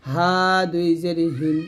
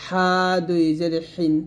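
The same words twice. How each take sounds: First: হিন begun with a light glottal h; soft Arabic ha. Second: হিন begun with a strong pharyngeal h; throaty Arabic ḥa. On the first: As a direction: say হা and হিন with a loose, open h, as Arabic ه. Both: Shown as a demonstration. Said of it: "এরকম".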